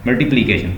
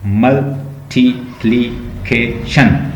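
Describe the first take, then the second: First: Said in the usual way. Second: multiplication slowly split, each syllable on its own. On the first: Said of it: "मैं कहता हूँ multiplication". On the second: Shown as a demonstration. Teacher splitting a long word to count, syllable by syllable. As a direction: break multiplication into separate, measured beats. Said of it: "देखें ये कितने".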